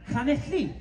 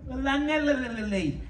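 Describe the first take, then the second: First: It starts with a Welsh ll sound. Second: It starts with a plain English l sound. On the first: The place name as locals say it. The speaker calls it right. "We say" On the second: The place name as outsiders say it. The speaker calls it wrong. "I said, could you tell me the way to"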